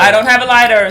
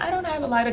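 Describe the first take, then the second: First: It is said in a firm, assertive tone. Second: It is said in an overly sweet, polite tone. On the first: The speaker politely sets a boundary without inviting more. The speaker calls it right. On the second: The speaker seems friendly and open to further approach. The speaker calls it wrong. "Then you can't be too nice"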